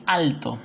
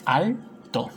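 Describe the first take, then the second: First: Said in the usual way. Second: "Alto" broken as al, pause, to; rising al, then a separate to in "Alto"; split into syllables. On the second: Shown as a demonstration. Teacher dividing an example word, "Alto" said al, to. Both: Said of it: "vendría a ser separo".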